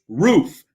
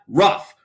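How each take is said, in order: First: The vowel is a long 'oo' sound. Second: The vowel is a short 'uh' sound. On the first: The speaker calls it right. "It's roof" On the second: The speaker calls it wrong. "not rough. ... Where did the uh come into roo?"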